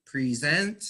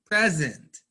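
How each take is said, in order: First: Pre-SENT, long first vowel, rising onto the second syllable; verb stress. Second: PRE-sent, short first vowel, punched then falling; noun stress. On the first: Teacher reading the verb from a list, second-syllable stress. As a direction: say present as a verb, pree-ZENT. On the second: Teacher reading the noun from a list, first-syllable stress. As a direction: say present as a noun, PREZ-ent. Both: Shown as a demonstration.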